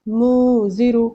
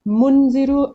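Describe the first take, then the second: First: The n sound is hidden as nasalization. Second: The n sound is pronounced fully and clearly. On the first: The speaker calls it right. "ये हो गया correct pronunciation" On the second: The speaker calls it wrong. "मुनजिरु गलत हो गया क्योंकि मैं नून की आवाज को पूरा प्रोनाउंस कर रही हूँ"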